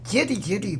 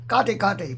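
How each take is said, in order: First: The word is pronounced like 'jiedi jiedi'. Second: The word is pronounced like 'gade gade'. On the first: This follows modern Mandarin pronunciation. "要是按照现代语普通话的音读" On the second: This follows the ancient Sanskrit pronunciation. "这是按照古梵音读的"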